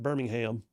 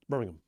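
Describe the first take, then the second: First: It is said with an American pronunciation. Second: It is said with an English local pronunciation. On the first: The speaker calls it wrong. "It's not Birmingham" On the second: The speaker calls it right. "it's over there. It's called Birmingham"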